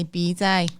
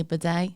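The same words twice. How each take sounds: First: "bidet" said as BEE-day; long ee in the first syllable of "bidet"; common English pronunciation. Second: "bidet" said as buh-DAY; short neutral first vowel in "bidet"; exotic European pronunciation. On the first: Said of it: "common English folk and we say". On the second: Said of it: "exotic Europeans would say". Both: Shown as a demonstration.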